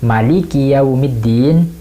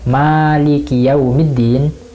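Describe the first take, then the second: First: The vowel after the m is short. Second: The vowel after the m is long. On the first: The King who rules the Day of Judgment. "Kalau kita membacanya pendek" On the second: The Owner of the Day of Judgment. "dibaca panjang"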